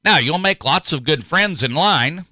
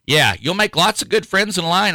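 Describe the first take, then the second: First: Said in the usual way. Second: Higher, wry repeat with a grin. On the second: Real, not acted. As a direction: say it again with ironic amusement. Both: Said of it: "repeated after laugh".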